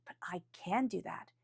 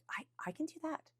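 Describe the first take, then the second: First: "But I can do that" with a settled falling tune; confident statement. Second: High rising question tune on "I, I can do that"; unsure question. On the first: Realizing your own power, said with calm certainty. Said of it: "And then it's like". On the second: Doubting yourself at first, a soft unsure question. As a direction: ask "I can do that" doubtfully, pitch climbing. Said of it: "it's a question mark first". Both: Shown as a demonstration.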